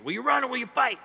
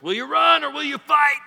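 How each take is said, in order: First: Higher, lighter battle cry; rally them again, less hard; milder William Wallace. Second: High, loud battle cry; rally the troops like Wallace; William Wallace voice. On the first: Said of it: "William Wallace type voice". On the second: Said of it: "in a William Wallace type voice". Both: Acted.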